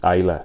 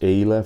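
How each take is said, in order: First: The name is said with a Spanish pronunciation. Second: The name is said with an English pronunciation. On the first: "For me, it's Ayla, but uh, that would be like just straight from Spanish" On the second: "I don't know how you pronounce that right. It's Ayla"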